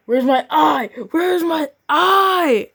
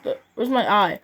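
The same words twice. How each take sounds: First: Higher and louder, the last take slow and drawn out; rising whiny wail. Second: Said in the usual way. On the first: Acted. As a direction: wail it like a broken toy. Character wails for lost eye.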